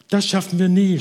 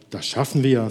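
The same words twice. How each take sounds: First: High, loud, exasperated huff; worn-out woman blurting out defeat; panting despair. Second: Steady, even reassurance; calm reassurance. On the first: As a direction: gasp it out in despair. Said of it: "schnaufte die Frau". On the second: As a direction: settle her gently, unhurried. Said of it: "sagte der andere". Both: Acted.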